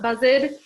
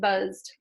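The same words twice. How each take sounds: First: The ending is not a plain d sound. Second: The ending is a plain d sound. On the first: The speaker calls it wrong. "It's not buzzed" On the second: The speaker calls it right. "the ed at the end is going to say duh"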